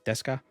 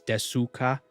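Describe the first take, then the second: First: The middle u vowel is nearly silent. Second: The middle u vowel is fully pronounced. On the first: "but it's pronounced deska" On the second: "it's spelled in in Romanized. It's desuka"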